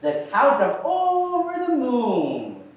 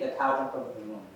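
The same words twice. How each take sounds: First: It is said lively, with many pitch ups and downs. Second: It is said flatly, with little pitch movement. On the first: The speaker calls it right. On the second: The speaker calls it wrong. "That's a boring way to say it"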